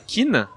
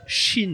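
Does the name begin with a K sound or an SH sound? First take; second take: K sound; SH sound. First: The name begins with a hard K sound. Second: The name begins with a soft SH sound. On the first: The speaker calls it wrong. "on prononce pas Kin, ça c'est les prononciations à la Gandalf" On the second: The speaker calls it right. "la vraie prononciation c'est Shin"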